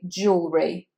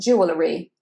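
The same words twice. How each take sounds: First: The word is said with just two syllables. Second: The word is said with more than two syllables. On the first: This is how it is said in the UK. The speaker calls it right. "Just two syllables here" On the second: This is how it is said in the USA. The speaker calls it wrong.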